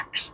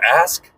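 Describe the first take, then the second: First: The word ends with a 'ks' sound. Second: The word ends with an 'sk' sound. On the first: The speaker calls it wrong. "did he really just say ax instead of ask?" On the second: The speaker calls it right. "instead of ask"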